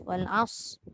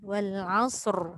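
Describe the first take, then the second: First: The final r sound is dropped. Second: The final r sound is clearly pronounced. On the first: The speaker calls it wrong. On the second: The speaker calls it right.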